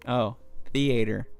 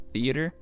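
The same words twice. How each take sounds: First: Theater said as thee-AY-ter; preferred pronunciation. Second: Said in the usual way. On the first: Shown as a demonstration. Picking the version he likes better, thee-AY-ter. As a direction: lean into thee-AY-ter, savouring it. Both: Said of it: "Nah, theater's better".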